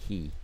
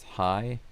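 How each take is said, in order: First: The vowel sounds like 'ee', Japanese style. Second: The vowel sounds like 'eye', English style. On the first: "in Japanese that would be he" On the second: "in English that's hi"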